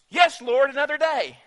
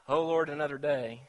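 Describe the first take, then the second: First: It sounds eager and glad. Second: It sounds weary and reluctant.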